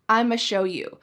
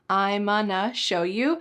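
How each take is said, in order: First: Going to shrinks to a single ma sound. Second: Going to becomes onna, without the g sound. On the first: "the ultra reduction" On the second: "cut off the G"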